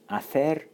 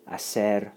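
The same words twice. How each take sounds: First: It is said with a Castilian Spanish accent. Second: It is said with a Latin American Spanish accent. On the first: "Castilian Spanish" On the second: "Latin American Spanish, or Southern"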